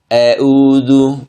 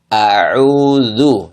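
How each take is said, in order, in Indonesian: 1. Vokal pertama condong ke 'e'. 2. Vokal pertama adalah 'a' yang terbuka penuh. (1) "kesalahannya jangan dibaca seperti ini" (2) "tapi dibaca"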